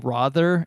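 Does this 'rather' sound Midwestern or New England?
New England. It is pronounced in a New England way.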